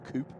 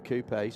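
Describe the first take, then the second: First: The word is pronounced the American way. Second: The word is pronounced in a non-American way.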